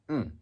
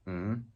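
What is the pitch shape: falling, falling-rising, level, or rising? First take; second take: falling; rising. First: The pitch drops sharply from high to low. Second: The pitch rises from mid to high. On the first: "and falling"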